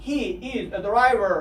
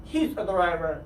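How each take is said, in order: First: He is said slowly, both words clear; careful full form He is; drawn out He is. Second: Said in the usual way. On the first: Shown as a demonstration. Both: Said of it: "باید شما اینها رو حتماً بدونید".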